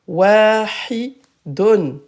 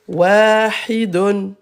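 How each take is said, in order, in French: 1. Le mot finit par la syllabe complète 'dun'. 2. Le mot finit par la syllabe complète 'dun'.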